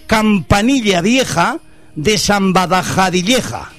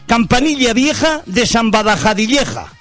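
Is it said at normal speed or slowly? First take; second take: slowly; normal speed. First: It is said slowly. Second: It is said at normal speed.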